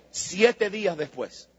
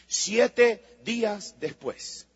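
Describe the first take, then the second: First: Said in the usual way. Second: Drawn out "siete días después", each word weighted; "siete días después" said very slowly and gravely; slow emphasis. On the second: Shown as a demonstration. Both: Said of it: "repeated slower".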